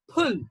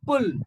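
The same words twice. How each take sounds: First: The word is said in a British English accent. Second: The word is said in an Indian English accent. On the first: "This in British English will be pronounced as pull" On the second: "in Indian English it is pull"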